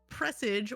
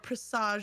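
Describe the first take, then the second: First: The word is said in a plain, ordinary way. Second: The word is said in a showy, fancy way.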